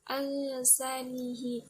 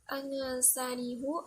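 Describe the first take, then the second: First: The final h is followed by an 'i' vowel. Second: The final h is followed by an 'u' vowel.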